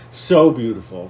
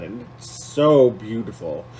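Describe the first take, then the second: First: So beautiful, with "so" pushed louder; emphatic repeat. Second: Said in the usual way. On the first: Real, not acted. Vlogger repeating for emphasis, "so" stressed louder. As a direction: lean hard on "so" in "so beautiful".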